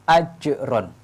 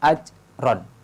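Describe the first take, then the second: First: The j is released with an audible bounce. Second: The j is held without an audible bounce. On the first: The speaker calls it right. "Harus ditampakkan qalqalahnya" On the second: The speaker calls it wrong. "qalqalahnya tidak tampak. Ini salah"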